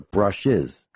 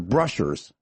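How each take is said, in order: First: No R sound is added before the ending. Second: An R sound is added before the ending. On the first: The speaker calls it right. "as in electric motor brushes" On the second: The speaker calls it wrong. "She doesn't even say it right"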